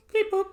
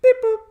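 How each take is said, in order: First: High beeps. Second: Said in the usual way. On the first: Shown as a demonstration. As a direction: beep boop squeaked way up high.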